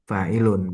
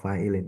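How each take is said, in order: First: The word ends with an -un vowel sound. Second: The word ends with an -in vowel sound. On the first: The word is treated as the subject of the verb. The speaker calls it right. "Enggak. Fa'ilun ya" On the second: The word is treated as a possessed noun's complement. The speaker calls it wrong. "Maka antum kasroh"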